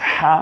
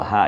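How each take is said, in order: First: হা pushed out from a tightly squeezed throat; pressed throat ha. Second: হা let out with the throat relaxed and open; released throat ha. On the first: A teacher showing students the throat-pressed হা. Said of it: "এইটা কণ্ঠনালীতে চাপ দিয়ে". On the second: A teacher contrasting the released হা for students. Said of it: "এটা কণ্ঠনালীতে ছেড়ে দিয়ে". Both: Shown as a demonstration.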